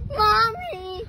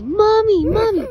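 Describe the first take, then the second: First: A second, gentler fake cry. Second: High, loud fake wail for mommy; fake crying. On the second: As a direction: cry out for mommy, loudly faked. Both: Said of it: "Let me hear you fake cry".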